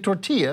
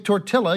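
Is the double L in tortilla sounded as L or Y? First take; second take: Y; L. First: The double L is sounded like a Y. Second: The double L is sounded like an L. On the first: The speaker calls it right. "you say tortilla, because you know the two L's together make a Y" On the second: The speaker calls it wrong. "you don't say tortilla"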